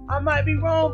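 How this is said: It is said in a put-on dude's voice.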